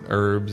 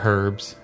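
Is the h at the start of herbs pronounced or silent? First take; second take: silent; pronounced. First: It is said in an American accent, h silent. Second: It is said in an English accent, h sounded.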